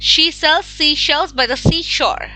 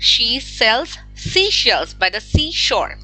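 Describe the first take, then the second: First: It is said at a fast pace. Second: It is said at a normal pace.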